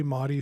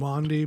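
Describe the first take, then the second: First: Maudie said without an n, MAW-dee; Maudie pronunciation. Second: Maundy said slowly with an n, MAWN-dee; Maundy pronunciation. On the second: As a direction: draw out Maundy with the n sounded. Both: Shown as a demonstration. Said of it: "supposed to be Maudie or Mondi".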